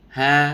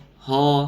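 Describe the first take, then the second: First: The sound is relaxed, with an open vowel. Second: The sound is thickened, with a rounded vowel. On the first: The speaker calls it right. "Pengucapan huruf H harus ha, ha... rileks... nggak boleh ditebalkan" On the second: The speaker calls it wrong. "Banyak orang yang mengucapkan huruf H ho, ho. Nah, ini salah, keliru"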